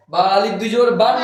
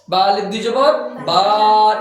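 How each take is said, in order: First: Final বা closed with an n, like "ban"; বা wrongly finished as "ban"; wrong nasal ending. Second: Final বা stretched long on an open "aa"; বা pulled out long as "baa"; drawn-out vowel. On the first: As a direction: show the mistake, ending বা on an n. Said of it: "না বলে". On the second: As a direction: hold the vowel of the last বা, no n. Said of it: "টেনে পড়তে হবে". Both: Shown as a demonstration.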